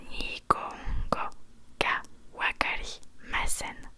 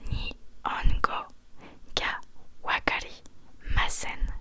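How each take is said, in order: Both takes have the same delivery.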